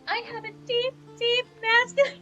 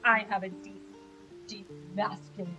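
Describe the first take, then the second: First: The voice is pitched higher, not deep. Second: The voice is pitched low and deep. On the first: This is how the voice really sounds when heard back. "when I listen to the playback, it's going to be like" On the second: This is how the voice feels while speaking. "I'm probably like"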